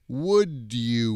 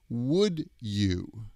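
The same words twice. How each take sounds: First: The two words blend together into one reduced sound. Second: The two words are said clearly and separately. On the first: This is how Americans usually say it. "when Americans pronounce would you, we usually say" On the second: This is the careful textbook pronunciation. "If you have an English textbook and a C D or an M P three, they probably pronounce would you like"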